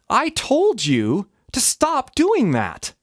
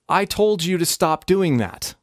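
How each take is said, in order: First: The pitch jumps very high on told. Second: The pitch rises only slightly on told.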